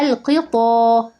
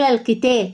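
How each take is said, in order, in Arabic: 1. صوت t مفخم وثقيل. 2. صوت t مرقق ورفيع. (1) "مفخمة التانية طا طا" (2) "مرققة تا تا"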